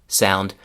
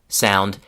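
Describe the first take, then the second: Both takes have the same delivery.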